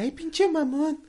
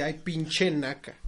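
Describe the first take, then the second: First: High, slow whiny comeback; mocking retold retort. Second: Slow, drawn-out disdain; scornful retold insult. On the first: Retelling the moviegoer's comeback, high mocking voice. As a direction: mimic her insult, high-pitched and drawn out. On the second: Retelling an insult to a moviegoer, drawn-out scorn. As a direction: stretch it out in acted contempt.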